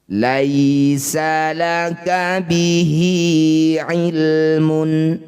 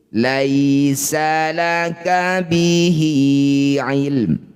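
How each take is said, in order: First: The last word ends with a full mun sound. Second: The last word ends on a bare m sound. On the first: The reading continues without stopping. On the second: The reading stops at this word.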